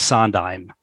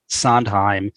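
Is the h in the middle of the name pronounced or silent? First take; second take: silent; pronounced. First: The h in the middle is not breathed. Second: The h in the middle is clearly breathed. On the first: The speaker calls it right. "it's Sondheim" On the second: The speaker calls it wrong. "the H is not supposed to be aspirated"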